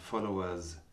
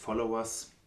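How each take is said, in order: First: The final s is voiced and soft. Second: The final s is voiceless and hard. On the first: The speaker calls it right. "das Plural S im Englischen ist oft stimmhaft" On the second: The speaker calls it wrong. "keine Auslautverhärtung im Englischen. Also nicht Followers"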